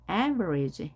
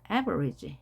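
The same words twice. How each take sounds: Both takes have the same delivery.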